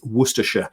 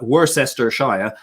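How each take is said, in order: First: Several spelled syllables are dropped. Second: Every spelled syllable is sounded out. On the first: The speaker calls it right. "It's Worcestershire" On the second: The speaker calls it wrong. "is a very common mispronunciation"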